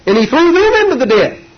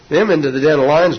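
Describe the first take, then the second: First: Much higher, louder declaration; emphatic preaching cry. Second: Said in the usual way. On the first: Acted. Preacher tells how the king threw the accusers into the den, crying it out. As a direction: cry out the judgment on them. Climax of the lion story.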